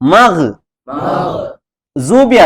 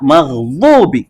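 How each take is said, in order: First: The middle consonant is said as a j sound. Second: The middle consonant is said with the tongue's side. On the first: The speaker calls it wrong. "ಮಗ್ ಜೂಬಿ ಅಲ್ಲ" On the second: The speaker calls it right. "ನಾಲಿಗೆ ಸೈಡ್ ಮೇಲಿನ ಹಲ್ಲಿನ ದವಡೆಗೆ ಟಚ್ ಆಗ್ಬೇಕು"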